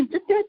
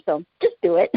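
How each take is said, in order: First: Higher, rising and laughing, cheering them on; playful urging. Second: Said in the usual way. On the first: Shown as a demonstration. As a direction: push them with a laugh: "Just do it". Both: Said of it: "That is an appropriate just do it".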